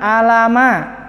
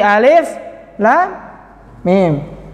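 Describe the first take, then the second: First: The letters are run together as short syllables. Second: Each letter is said by its full name. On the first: The speaker calls it wrong. "bukan alama" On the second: The speaker calls it right. "tapi alif, lam, mim ... dieja hurufnya"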